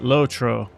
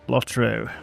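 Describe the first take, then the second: First: The first syllable sounds like 'low'. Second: The first syllable sounds like 'lot'. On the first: "as the Americans like to call it" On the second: "we call it Lot"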